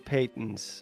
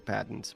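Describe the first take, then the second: First: It is said the British way. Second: It is said the American way. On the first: "in the U K they say patents" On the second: "I just say patents"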